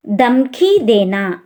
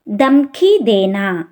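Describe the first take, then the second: No difference in how they are said.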